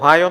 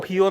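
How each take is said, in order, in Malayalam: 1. മധ്യ സ്വരാക്ഷരം 'eye' എന്ന് ഉച്ചരിക്കുന്നു. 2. മധ്യ സ്വരാക്ഷരം 'ee' എന്ന് ഉച്ചരിക്കുന്നു. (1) "പക്ഷെ ഒഹായോ എന്നാണ് അത് ഉച്ചരിക്കുക" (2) "ഒഹിയോ എന്നാണ് ആളുകൾ പറയുക"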